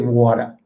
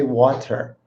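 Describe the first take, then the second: First: The middle T is left out. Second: The middle T is clearly pronounced. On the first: "they leave out the T" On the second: "they don't say water"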